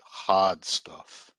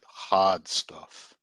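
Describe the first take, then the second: First: It is said in an imitated Boston accent. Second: It is said in an imitated Boston accent.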